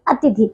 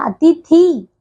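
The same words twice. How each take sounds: First: अतिथि with short i vowels; correct short ending. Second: अतिथि said as "atithee"; wrong long ending. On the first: Teacher correcting pupils, अतिथि with short i. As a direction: keep the final i of अतिथि brief. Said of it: "ये होता है". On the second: Teacher showing pupils the error, अतिथि with long ee. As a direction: stretch the last vowel of अतिथि. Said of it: "ये नहीं होता बच्चों". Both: Shown as a demonstration.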